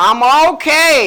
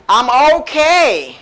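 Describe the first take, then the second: First: Said in the usual way. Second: Very slow, each word drawn out; slow model answer. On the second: Shown as a demonstration. Teacher modelling the reply for students, very slowly. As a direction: spell out I'm okay slowly for learners. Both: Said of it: "You can say".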